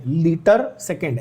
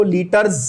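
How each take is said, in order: First: "लीटर सेकंड" as two separate words, no s ending on लीटर; correct reading. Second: "लीटर्स" with an s sound run onto the end; misread plural. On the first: Shown as a demonstration. Teacher showing students what is written, correct two-word reading of "लीटर सेकंड". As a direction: read out "लीटर", then "सेकंड" distinctly. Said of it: "ऐसा लिखा है मैंने".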